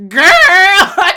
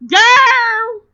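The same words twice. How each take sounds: First: Imitating, voice cracks on girl; voice cracking. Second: High loud exclamation. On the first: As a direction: try the shout, let it crack. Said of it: "My voice cracked". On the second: Real, not acted. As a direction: throw the word out with full sass. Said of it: "trying to do what you did".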